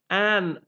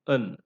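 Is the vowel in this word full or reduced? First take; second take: full; reduced. First: The word is said with a full, clear vowel. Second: The word is said with a weak, reduced vowel. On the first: "you have a strong form" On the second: "when you use it in connected speech, it is not an"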